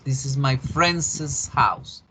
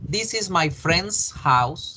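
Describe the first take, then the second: First: Friend's gets an extra soft es syllable. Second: Friend's ends in a plain s sound. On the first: Several friends own the house. "La casa de mis amigos" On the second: One friend owns the house. "La casa de mi amigo"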